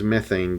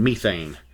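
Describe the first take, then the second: First: Methane is said with an American pronunciation. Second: Methane is said with a British pronunciation.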